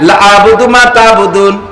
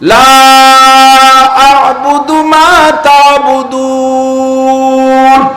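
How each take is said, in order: First: The vowel of the first word is cut short. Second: The vowel of the first word is drawn out long. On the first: The speaker will surely worship what they worship. The speaker calls it wrong. "লারে টানেন নাই" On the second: The speaker will never worship what they worship. The speaker calls it right. "এটা আমি শুদ্ধ পড়ছি।"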